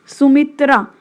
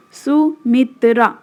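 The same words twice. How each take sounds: First: Said in the usual way. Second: Sumitra slowly broken into three beats; split into syllables. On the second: Shown as a demonstration. Teacher counting three syllables in a name, Sumitra split in three. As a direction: pause between each syllable of Sumitra. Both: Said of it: "three syllable हुआ".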